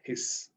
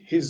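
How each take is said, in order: First: The word ends with a long, doubled hissing s. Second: The word ends with one short s sound. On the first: The speaker calls it wrong. "not his" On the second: The speaker calls it right. "they say his only"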